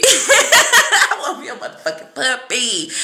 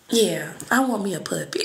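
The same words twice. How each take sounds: First: Louder and slower, laughing through motherfucking; laughing emphasis. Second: Said in the usual way. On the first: Real, not acted. Telling her viewers she wants a puppy, laughing loudly. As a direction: lean in hard on "motherfucking" while laughing.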